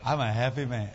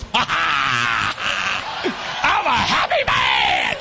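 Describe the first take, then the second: First: Low, understated imitation of dad; imitating contented dad. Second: Loud, whooping imitation of a happy father; drawn-out, shouted mock glee; imitating exultant dad. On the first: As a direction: say it low, as dad's simple answer. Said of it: "He just laughs". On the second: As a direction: belt it out like a gleeful old dad. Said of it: "he goes".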